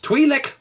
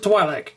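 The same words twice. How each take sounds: First: The first syllable rhymes with 'see'. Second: The first syllable rhymes with 'sky'. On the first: This is how the show pronounces it. The speaker calls it right. "but it's Twi'lek apparently" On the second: This is how the speaker used to say it. The speaker calls it wrong. "I always pronounce it Twi'lek"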